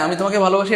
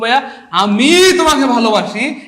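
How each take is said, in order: First: It is said plainly, with no special emphasis. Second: The word 'ami' is strongly emphasized.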